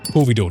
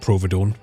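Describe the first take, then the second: First: It is said without an r after the p. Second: It is said with an r after the p. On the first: The speaker calls it right. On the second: The speaker calls it wrong. "not Providone"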